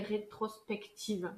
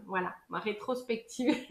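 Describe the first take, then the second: First: "rétrospective" said slowly and softly, each syllable placed; careful slow word. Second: Said in the usual way. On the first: Shown as a demonstration. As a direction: get "rétrospective" out carefully at last. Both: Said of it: "C'était le mot que j'arrivais pas à dire".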